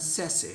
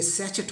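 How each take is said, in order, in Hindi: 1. बीच का व्यंजन 'sh' ध्वनि है। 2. बीच का व्यंजन 'ch' ध्वनि है। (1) "इसका सही उच्चारण सैसे होता है" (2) "लगता है कि ये सैचेट होना चाहिए"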